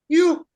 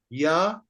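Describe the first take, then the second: First: The syllable is said with a higher pitch. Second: The syllable is said with a lower pitch. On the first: The syllable has a prefix before it. "Because there is a prefix, it went higher. You, like this" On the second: The syllable has no prefix before it. "If there is no prefix ka, then this will be just ya"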